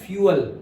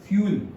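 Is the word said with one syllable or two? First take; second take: two; one. First: The word is said as two syllables. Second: The word is said as one short syllable. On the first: "मैं क्या बोलता था पता है? फ्यूअल" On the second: "हम फ्यूअल को ऐसे बोलते हैं फ्यूल"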